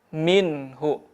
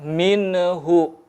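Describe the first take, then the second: First: The n is said clearly without hum or break. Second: The n is released with a bouncing echo. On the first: The speaker calls it right. "dibaca jelas" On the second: The speaker calls it wrong. "hindari memantul"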